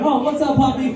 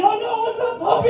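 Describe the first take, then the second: First: High, sing-song hello to a dog; friendly puppy greeting. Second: Much higher, strained squeak of alarm; same hello, but squeaking as the dog lunges; panicked puppy greeting. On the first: Greeting a stranger's dog under a lifted truck, high and friendly. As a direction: coo at the puppy like it's a friend. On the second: Dog attacking him under the truck, squeaky panicked greeting. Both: Retold or imitated.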